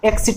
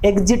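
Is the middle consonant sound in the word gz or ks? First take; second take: ks; gz. First: The middle consonants are voiceless, like ks. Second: The middle consonants are voiced, like gz. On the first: The speaker calls it right. "एक्सिट होता है" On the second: The speaker calls it wrong. "एग्जिट नहीं"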